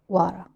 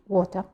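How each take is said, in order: First: It is said in an American accent. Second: It is said in a British accent.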